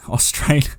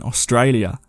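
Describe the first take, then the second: First: Australia in a broad Aussie accent, Aus-TRAY-lia; Australian accent. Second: Said in the usual way. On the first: Shown as a demonstration. Reading out where a listener's story comes from, in a broad Australian accent. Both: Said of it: "I say Australia with an accent".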